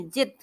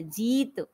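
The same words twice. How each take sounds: First: जित with a quick short i; short i error. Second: जीत with a drawn-out ee; long ī. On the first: Teacher showing how not to read it, short i in जित. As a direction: cut the vowel of जित short. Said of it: "जित नहीं पढ़ेंगे". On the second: Teacher giving the correct word, long ee in जीत. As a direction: hold जीत long in the middle. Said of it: "जीत शब्द होता है". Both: Shown as a demonstration.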